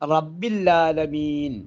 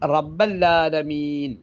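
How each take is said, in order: First: The ain sound is replaced by a doubled l. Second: An a vowel follows rabb, then a doubled l. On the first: The phrase comes to contain a word meaning 'there is none'. "ഐനിന്റെ ഉച്ചാരണം ലാമിലേക്ക് വരുമ്പോൾ റബ്ബില്ല എന്നാണ്" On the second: The phrase comes to contain a word meaning 'not'. "ബായിലേക്ക് കസർ കൊടുക്കാതെ ഫതഹ് കൊടുത്താൽ റബ്ബല്ലാലമീൻ"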